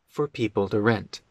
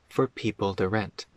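Both takes have the same delivery.

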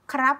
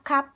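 First: The r sound after the k is pronounced. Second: The r sound after the k is dropped. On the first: It is the formal, correct form. "this way is correct. Krap is correct and formal" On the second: It is the casual everyday form. "in daily life, like people just say kap kap"

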